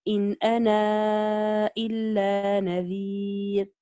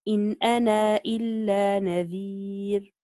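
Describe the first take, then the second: First: The vowel ending 'ana' is stretched extra long. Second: The vowel ending 'ana' is held briefly long. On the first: "وجه التوسط" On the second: "بوجه القصر إذا أثبت الألف"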